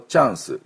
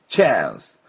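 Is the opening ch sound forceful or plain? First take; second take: plain; forceful. First: The ch sound at the start is plain. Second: The ch sound at the start is forceful. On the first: The speaker calls it wrong. "日本のチャンスではなくて" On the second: The speaker calls it right. "チッチッチャンス"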